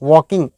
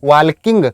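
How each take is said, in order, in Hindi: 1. "walking" में L ध्वनि silent है। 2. "walking" में L ध्वनि बोली जाती है। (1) "एल साइलेंट है" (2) "कई लोग इसको क्या प्रोनाउंस करते हैं"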